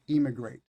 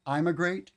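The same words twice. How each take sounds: First: "immigrate" with the first vowel pushed toward a clear E; "immigrate" over-pronounced for contrast; exaggerated E spelling. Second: "I'm a great" said as three words, the I pulled apart like "I'm"; "I'm a great" spoken as separate words to mark the I spelling; split into I'm a great. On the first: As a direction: lean on the front of "immigrate" to show the E spelling. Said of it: "This isn't the proper way". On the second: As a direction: break immigrate into I'm a great. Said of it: "they'll say". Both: Shown as a demonstration.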